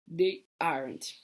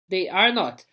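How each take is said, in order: First: Aren't said slow and soft; contracted form. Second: Said in the usual way. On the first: Shown as a demonstration. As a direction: draw out they aren't quietly as one word. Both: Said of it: "Olha aqui, ó".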